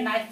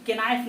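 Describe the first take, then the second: First: The word starts with an n sound. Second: The word starts with a spoken k sound. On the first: The speaker calls it right. "के यहाँ पर silent है" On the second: The speaker calls it wrong. "यहाँ पर के नाइफ नहीं पढ़ेंगे"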